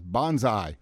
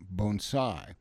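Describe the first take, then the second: First: The first syllable does not sound like 'bone'. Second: The first syllable sounds like 'bone'. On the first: It is heard as a war cry. The speaker calls it wrong. "Many people mispronounce the word as bonsai" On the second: It names the art of growing dwarfed plants. The speaker calls it right. "So the word is pronounced bonsai"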